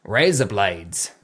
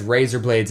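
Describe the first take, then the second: First: Slow, low Australian drawl; put-on Australian accent, dropped low. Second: Said in the usual way. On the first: Shown as a demonstration. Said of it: "razor blades in an Australian accent". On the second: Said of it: "says razor blades in an Australian accent".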